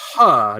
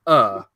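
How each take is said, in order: First: The word starts with an h sound. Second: The word starts with a vowel sound. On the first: The speaker calls it right. "it's a her" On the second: The speaker calls it wrong. "not an er"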